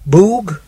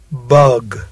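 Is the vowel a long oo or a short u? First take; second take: long oo; short u. First: The vowel is a long tense oo sound. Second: The vowel is a short relaxed u sound. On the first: The speaker calls it wrong. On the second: The speaker calls it right.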